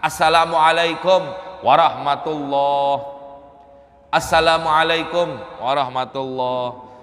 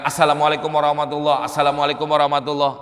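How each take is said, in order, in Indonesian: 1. Ada jeda singkat yang memisahkan kedua salam itu. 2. Kedua salam itu diucapkan menyambung tanpa jeda. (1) "ada jeda, ada berhenti sesaat" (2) "nggak ada jedanya"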